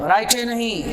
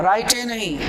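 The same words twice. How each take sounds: No difference in how they are said.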